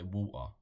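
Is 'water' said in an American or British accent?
British. It is said in an English accent. "what would we say? Water"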